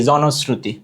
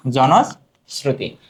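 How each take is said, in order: First: Said in the usual way. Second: Word stretched out in parts; slow dictation. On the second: Shown as a demonstration. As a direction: repeat it slowly for note-takers. Answer repeated slowly for students. (টেনে টেনে ধীরে বলা)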